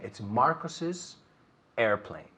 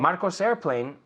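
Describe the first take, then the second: First: An extra syllable is added after the name. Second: No extra syllable is added after the name. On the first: The speaker calls it right. "es añadiendo el is nada más" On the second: The speaker calls it wrong. "No hay nada que me dice a mí que eso es una S posesiva"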